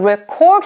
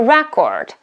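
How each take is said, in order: First: The stress is on the second syllable. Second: The stress is on the first syllable. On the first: It is used as a verb. "record here is a verb" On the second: It is used as a noun. "record is a noun"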